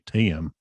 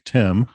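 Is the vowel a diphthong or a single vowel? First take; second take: diphthong; single vowel. First: The vowel glides as a diphthong. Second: The vowel is a single short vowel.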